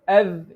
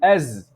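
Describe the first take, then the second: First: It ends with a soft 'th' sound. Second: It ends with a buzzing 'z' sound. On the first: The speaker calls it right. "Instead of" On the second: The speaker calls it wrong. "you say az"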